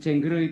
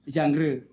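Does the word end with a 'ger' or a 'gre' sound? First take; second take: ger; gre. First: It is said like 'jeng-ger', ending in 'ger'. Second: It is said like 'jang-re', ending in 'gre'. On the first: The speaker calls it wrong. "kalau mengucapkan jengger itu mohon ... diperhalus lagi" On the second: The speaker calls it right. "membacanya jangre"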